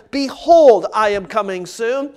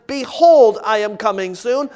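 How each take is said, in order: Both takes have the same delivery.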